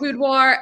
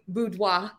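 First: It ends with a hard Appalachian R. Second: It ends with a soft, unstressed R.

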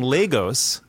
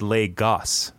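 First: The second syllable's vowel sounds like 'go'. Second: The second syllable's vowel does not sound like 'go'. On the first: The speaker calls it wrong. "I've been saying Lagos, like go" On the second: The speaker calls it right. "they said Lagos, not ghost"

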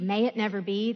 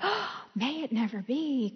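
First: It is said plainly, without a gasp. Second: It is said with a shocked, wistful gasp.

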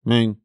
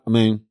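The two takes are said the same way.

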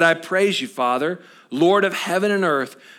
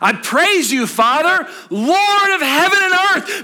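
First: It is read plainly, without joy. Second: It is said with joyful excitement.

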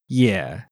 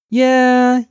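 First: The pitch dips low and then comes up. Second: The pitch stays high and level throughout.

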